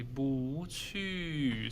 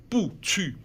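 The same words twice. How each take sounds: First: "不去" as rising bú then falling qù, softer; melodic tone change. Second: "不去" as two falling tones, bù qù, abrupt; harsh double fourth tone. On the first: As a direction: glide up then down on "不去". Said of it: "sounds like elegant, like the melody". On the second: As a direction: drop hard on both "不去" syllables. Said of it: "too harsh ... not very polite". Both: Shown as a demonstration.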